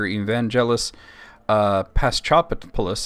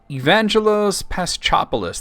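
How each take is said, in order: First: The name is said haltingly, with a hesitation. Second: The name is said smoothly, without hesitation. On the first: The speaker calls it wrong. "I probably mangled it" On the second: The speaker calls it right. "That sounds better"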